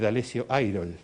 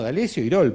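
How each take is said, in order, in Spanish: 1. El apellido se pronuncia con sonidos ingleses. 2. El apellido se pronuncia con sonidos españoles. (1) "pronunciamos en inglés palabras que, o nombres" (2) "No, porque el apellido es Irol y es español"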